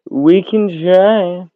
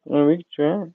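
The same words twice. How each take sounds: First: Very slow, stretched we can try; drawn out. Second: Said in the usual way. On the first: Real, not acted. Agreeing to try TikTok, very slowly drawn out. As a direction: stretch it out lazily.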